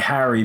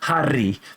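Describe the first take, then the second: First: The R sound is soft, not rolled. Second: The R sound is strongly rolled.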